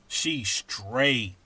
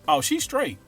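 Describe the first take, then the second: First: The word straight is drawn out long. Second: The pitch fluctuates a little.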